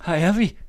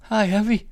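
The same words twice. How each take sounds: First: High, loud call again from the train. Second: High, loud happy call. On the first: Wife calling out to Sigvald from the train, loud. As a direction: call out gladly to greet him. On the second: Wife calling out to her husband on the platform, loud and high. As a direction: call out to him across the platform. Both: A narrator's reading. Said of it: "råbte hun".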